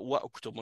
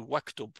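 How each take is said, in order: First: The u vowel of uktub is kept after wa. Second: The u vowel is dropped, linking wa to ktub. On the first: The speaker calls it wrong. "on dit pas wa octobre" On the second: The speaker calls it right. "on dit waktub"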